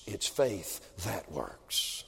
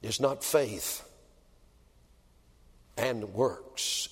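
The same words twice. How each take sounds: First: "It's faith that works" very slow and soft, leaning on "that"; stress on that. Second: "It's not faith" slow, then a pause before "and works"; stress contrast. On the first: Preacher gives the congregation the right version, very slow and soft. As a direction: let "that works" land as the answer. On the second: Preacher corrects the congregation, slow with a pause before "and works". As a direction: set "faith" and "works" apart as two things. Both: Shown as a demonstration. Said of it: "You put works before faith".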